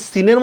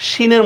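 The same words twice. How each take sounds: First: সিনের opened on a thin hissed s; s like seen. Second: শিনের opened on a palatal sh; sh like sheen. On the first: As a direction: say সিনের as "siner", with a dental s. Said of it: "উচ্চারণ আমি কি সিনের মতো করতেছি". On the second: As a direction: say শিনের as "shiner", with a hushing sh. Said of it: "শিনের মতো করতেছি". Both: Shown as a demonstration.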